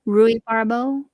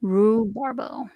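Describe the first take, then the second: First: Rhubarbo with a separate ee after the roo, roo-ee-BAR-bo; louder, questioning Rhubarbo with every vowel sounded; every letter pronounced. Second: Rhubarbo as three slow syllables, roo-BAR-bo; slow, falling rhubarbo with just roo at the start; letters merged. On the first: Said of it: "Do I pronounce all those letters?". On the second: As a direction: drop the ee from rhubarbo, slowly saying roo-bar-bo. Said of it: "Or is it". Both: Shown as a demonstration.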